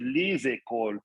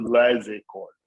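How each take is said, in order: First: The vowel in the first word is closed. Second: The vowel in the first word is open. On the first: The speaker calls it right. "école is very close, then it's les écoles" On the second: The speaker calls it wrong. "as opposed to"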